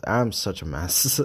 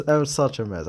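First: Said in the usual way. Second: Laughing. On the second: Real, not acted.

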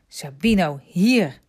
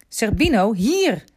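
First: Loud call, firm hier; boy calling his dog back, loud. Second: Higher, more insistent loud call; boy calling his dog a second time, more insistent; calling again. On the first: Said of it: "riep Remy". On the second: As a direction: call him back once more, sharper. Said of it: "riep Remy weer". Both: A narrator's reading.

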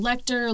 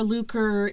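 First: Lecter said as LEK-ter; variant name pronunciation. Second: Luker said as LOO-ker; variant name pronunciation. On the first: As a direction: pronounce "Lecter" with a short e before kt. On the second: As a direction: pronounce "Luker" with a long oo, hard k. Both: Shown as a demonstration. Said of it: "some people call him Lecter".

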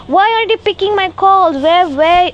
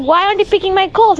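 First: High, louder nagging mom voice; mimicking a scolding mother, pitched up. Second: High, fast mocking mom voice; quick, high mock of mom's complaint; mom nagging. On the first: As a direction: mimic mom demanding answers. Mom scolding about missed calls. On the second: Mom quoted again, scolding.

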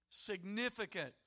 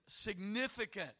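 The two takes are said the same way.

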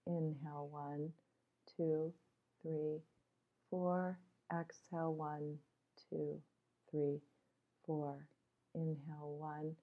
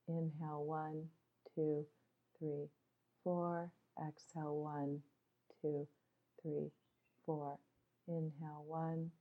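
No difference in how they are said.

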